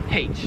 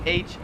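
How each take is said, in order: First: Letter "H" as haitch; Australian variant. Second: Letter "H" as aitch; standard pronunciation. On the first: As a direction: breathe an h at the start of "H". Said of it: "a lot of them here pronounce". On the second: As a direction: start "H" on the vowel, no breath. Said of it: "some people in Australia do say". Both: Shown as a demonstration.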